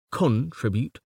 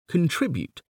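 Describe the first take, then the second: First: "Contribute" stressed on CON; CON-tribute, front-stressed "Contribute"; stress on first syllable. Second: "contribute" stressed on TRIB; con-TRIB-ute, middle-stressed "contribute"; stress on second syllable. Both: Shown as a demonstration. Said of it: "but there are variations".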